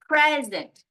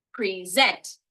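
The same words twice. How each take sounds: First: "Present" with PRES punched high and loud, then falling; stress on first syllable. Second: "present" as pree-ZENT, the end punched; stress on second syllable. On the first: Teacher sums up what stress is, stress on first syllable of "Present". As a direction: hit the front of "Present", PREZ-ent. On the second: Teacher sums up what stress is, stress on second syllable of "present". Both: Shown as a demonstration. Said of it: "That's what stress is".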